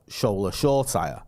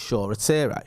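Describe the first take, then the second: First: "Shore Tyre", just like shore plus tyre; "Shore Tyre" as two plain English words; disputed pronunciation. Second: "Shore Rattire", extra syllable, ending like "teh-ray"; "Shore Rattire" in three-syllable corrected form; corrected pronunciation. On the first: Shown as a demonstration. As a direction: say "Tyre" like a car tyre. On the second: Retold or imitated. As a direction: say "Rattire" as ra-TEER-ay. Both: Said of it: "You're pronouncing it wrong".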